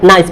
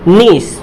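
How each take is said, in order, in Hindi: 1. स्वर 'eye' जैसा सुनाई देता है। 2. स्वर 'ee' जैसा सुनाई देता है। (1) "बहुत सारे स्टूडेंट्स इसको क्या पढ़ते हैं? नाइस पढ़ते हैं, जो कि बिल्कुल गलत है।" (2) "तो क्या हो जाएगा?"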